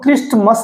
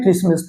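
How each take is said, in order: First: The t is pronounced in the middle. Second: The t is silent in the middle. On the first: The speaker calls it wrong. "इसको हम क्रिस्टमस नहीं बोलते" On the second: The speaker calls it right. "इसको हम क्या बोलते हैं"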